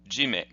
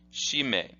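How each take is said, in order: First: The word starts with a 'j' sound. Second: The word starts with a 'sh' sound. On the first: "sometimes in Japanese you will see it pronounced this way" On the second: "the way this is pronounced is as follows"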